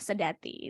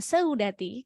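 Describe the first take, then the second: First: The first vowel is one single vowel sound. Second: The first vowel glides as two vowel sounds. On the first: The speaker calls it right. "karena ini monoftong, bacanya adalah sedati" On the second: The speaker calls it wrong. "Cara bacanya bukan seudati"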